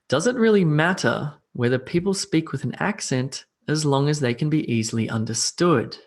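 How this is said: It is grouped with natural pauses.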